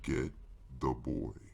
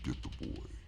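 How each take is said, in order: First: It is said loudly. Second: It is said quietly.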